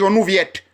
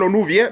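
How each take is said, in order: First: The final T is sounded. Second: The final T is silent. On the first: The speaker calls it wrong. "les Anglais ici parfois me disent Onouviette" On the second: The speaker calls it right. "Mais le T est silencieux"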